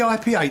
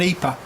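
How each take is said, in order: First: The letters are read with English letter names. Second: The letters are read with Swedish letter names. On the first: The speaker calls it right. "if it's an English acronym, then pronounce it correctly" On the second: The speaker calls it wrong. "When people are after an"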